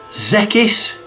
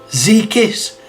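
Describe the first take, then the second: First: The middle consonant is a hard 'k' sound. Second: The middle consonant is a hard 'k' sound.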